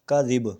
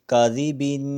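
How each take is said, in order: First: The word ends on a bare 'b' consonant. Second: The word ends with a nasal '-in' sound. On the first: "आगे वक्फ" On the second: "बा दो ज़ेर बिन काजी बिन"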